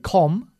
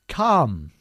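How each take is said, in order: First: The vowel is a rounded 'o' sound. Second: The vowel is an open 'uh' sound. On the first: The speaker calls it wrong. "we never say com" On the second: The speaker calls it right. "but come"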